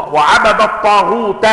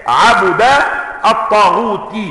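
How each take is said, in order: First: وعبد الطاغوت with fatha on the ba and the ta of الطاغوت in the accusative: wa-'abada t-taghuta; reading of the others. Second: عبد الطاغوت read as 'abudu, with الطاغوت ending in -ti; reading of Hamza. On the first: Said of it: "وهي قراءة الباقين". (وعبدَ الطاغوتَ قراءة الباقين) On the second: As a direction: say عبد الطاغوت with damma on the ba of عبد and kasra on the ta of الطاغوت: 'abudu t-taghuti. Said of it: "هذه قراءة حمزة". (عبدُ الطاغوتِ بضم الباء وخفض التاء) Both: Shown as a demonstration.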